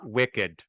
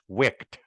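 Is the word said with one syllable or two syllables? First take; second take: two syllables; one syllable. First: The word has two syllables, ending in -ed. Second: The word has one syllable, rhyming with licked. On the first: The speaker calls it wrong. "It's not wicked" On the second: The speaker calls it right. "It's wicked. Just like licked"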